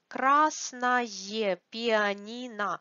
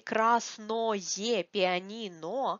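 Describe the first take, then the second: First: The adjective ending sounds like 'aye', reduced. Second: The adjective ending sounds like a full 'oye'. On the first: It sounds like a native speaker. "We pronounce it like ае" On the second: It is still understood by everyone. "if you say красное пианино, everybody will understand you"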